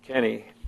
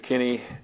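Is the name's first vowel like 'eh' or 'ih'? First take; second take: ih; ih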